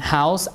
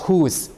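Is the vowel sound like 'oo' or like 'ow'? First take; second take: ow; oo. First: The vowel is an 'ow' diphthong. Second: The vowel is a long 'oo' sound. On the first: This is the modern pronunciation. "and house, ow" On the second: This is the older Middle English pronunciation. "whose instead of um, other things"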